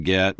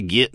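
First: Said in the usual way. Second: "git" with a short i sound, Texan style. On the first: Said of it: "instead of". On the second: Shown as a demonstration. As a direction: say "git" like a Texas kid. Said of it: "I used to say "git" instead of "get".

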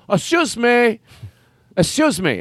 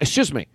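First: High, pushy "Excuse me" repeated; insistent usher. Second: Said in the usual way. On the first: Retold or imitated. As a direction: keep cutting in with "Excuse me", higher each time. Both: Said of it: "This is a character that I made up".

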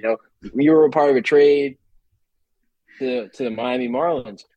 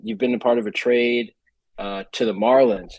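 First: Milk the suspense before the team name; louder, far-off news voice with a long held pause; dramatic pause. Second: Said in the usual way. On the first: Retold or imitated. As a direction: announce it big, then hold a long pause before "to the Miami Marlins". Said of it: "a dramatic pause of him saying". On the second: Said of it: "like, a dramatic pause in between".

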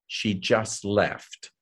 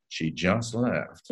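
First: Enigmatic line. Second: Slow, quiet, mysterious delivery; enigmatic. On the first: Retold or imitated. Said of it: "just look off and say". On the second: Shown as a demonstration. Actor reading the phone line enigmatically, slow and hushed. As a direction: say it slow and hushed, giving nothing away. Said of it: "Just be enigmatic".

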